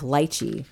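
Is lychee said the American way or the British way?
British. Lychee is said the common British way. "in the UK, it's more common to have lychee"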